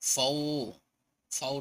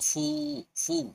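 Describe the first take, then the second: First: The vowel glides like 'au'. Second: The vowel is a plain 'oo'. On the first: The speaker calls it wrong. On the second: The speaker calls it right.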